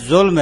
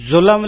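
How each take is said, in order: First: ظلم said zulm, l and m joined with no vowel; ظلم as one closed syllable, zulm; clipped ظلم with no extra vowel; correct pronunciation. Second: ظلم said zulam, an extra a before m; ظلم split into two syllables, zu-lam; mispronounced ظلم with an added vowel; common wrong pronunciation. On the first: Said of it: "ظلم ہے". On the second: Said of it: "ظلم لفظ نہیں ہے". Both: Shown as a demonstration.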